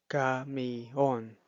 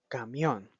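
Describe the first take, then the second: First: The i and o fall in separate syllables. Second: The i and o blend into one syllable. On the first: The speaker calls it wrong. "No se pronuncia camión" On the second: The speaker calls it right. "uniendo la letra I y la letra O"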